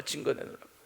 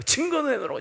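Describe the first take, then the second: First: Muttered demand. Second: Demanding proof. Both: Retold or imitated. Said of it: "뭘 사랑하냐고".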